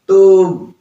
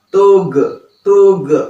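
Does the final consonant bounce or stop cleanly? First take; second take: stops cleanly; bounces. First: The final consonant stops cleanly without a bounce. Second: The final consonant bounces with an echoing release. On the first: The speaker calls it right. "jangan ada sisa ya, jangan dipantulkan" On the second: The speaker calls it wrong. "jangan malah tug tug. Nah, itu kurang tepat ya"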